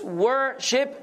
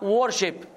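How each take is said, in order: First: The first vowel sounds like 'er' in 'word'. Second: The first vowel sounds like 'or' in 'war'. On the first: The speaker calls it right. "it's worship" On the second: The speaker calls it wrong. "not worship. Because you have a warship"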